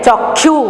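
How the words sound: It is said with an Odia-style pronunciation. The speaker calls it wrong. "लेकिन ओडिया में हम क्या कहते हैं"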